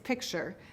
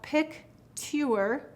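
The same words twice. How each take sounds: First: The middle is said with a ch sound. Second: The middle is said with a clear t sound. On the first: This is how the word is actually said. "but it's picture" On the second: This is the spelling pronunciation. "we will say to spell picture"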